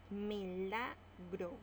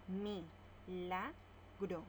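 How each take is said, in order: First: Milagro drawn out slowly; slow example word. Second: Very slow, Mi-la-gro in separate beats; syllable by syllable. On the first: (Milagro dicha despacio) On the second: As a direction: spell out Mi-la-gro slowly. (Mi-la-gro sílaba por sílaba, muy lento) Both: Shown as a demonstration. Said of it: "Lo separamos en sílabas".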